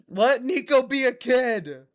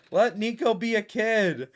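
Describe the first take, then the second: First: High, loud, slow shouted demand; slow drawn-out shout at the game; drawn-out yell. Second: Loud playful yell; yelling a demand at the game; shouting at the game. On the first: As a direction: stretch it out and yell. Repeated louder, slower. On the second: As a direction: yell it at the screen. Yelling at the game's character. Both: Real, not acted.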